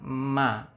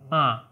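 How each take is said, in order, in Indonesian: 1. Diucapkan dengan resonansi sengau yang jelas. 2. Terdengar tersumbat, seperti hidung yang dijepit. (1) "Misalnya kita bisa membunyikan ma" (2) "kayak orang bindeng"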